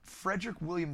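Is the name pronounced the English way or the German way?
English. The name is said with English pronunciation.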